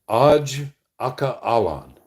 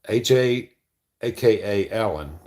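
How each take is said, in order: First: AJ and aka are read as whole words. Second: AJ is spelled out as separate letters. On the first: It is taken for a Middle Eastern name. The speaker calls it wrong. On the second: It is taken for initials and an abbreviation. The speaker calls it right.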